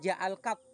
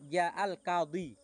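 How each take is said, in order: First: The last word ends without its final vowel. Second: The last word keeps its final vowel. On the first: The speaker calls it wrong. "bukan ja'al qad, bukan" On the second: The speaker calls it right. "Tetap ja'al qadhi"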